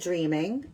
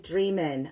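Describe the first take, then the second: First: The word ends with an 'ng' sound. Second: The word ends with a plain 'n' sound. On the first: The speaker calls it wrong. "I'm going to say it wrong" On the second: The speaker calls it right. "no G at the end"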